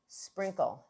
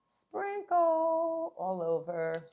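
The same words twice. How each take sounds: First: Said in the usual way. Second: Sprinkle sung high and slow; sing-song high. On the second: Shown as a demonstration. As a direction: stretch "sprinkle" up high, slowly. Sings out the sprinkle.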